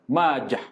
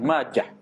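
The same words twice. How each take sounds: First: The word ends with a silent h sound. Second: The word ends with a t sound. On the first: The speaker calls it right. "menyebut dengan ha. Berbaris mati" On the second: The speaker calls it wrong. "ada yang baca Ibnu Majah pun titik"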